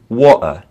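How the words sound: The middle T is left out entirely. "in a lot of British English, they'll often just take out the T"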